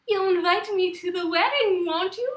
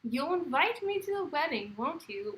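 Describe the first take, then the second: First: It is said in an imitated voice of someone. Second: It is said in the speaker's own natural voice.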